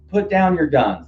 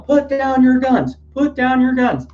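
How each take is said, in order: First: Mildly raised, recalled quote of a protester; just remembering the words, a half-voiced call. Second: Very high, slow, loud mock yell; imitated yelling. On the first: Recalling what the protester yelled, lightly raised. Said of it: "He said, he said". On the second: Protester yelling at police to drop weapons, high slow mock shout. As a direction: bellow it at the cops like the protester did. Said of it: "He was yelling".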